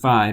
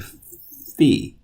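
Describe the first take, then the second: First: It is said the way people often hear it. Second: It is said with the Greek pronunciation. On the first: "You may have heard this pronounced phi" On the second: "in Greek we say phi"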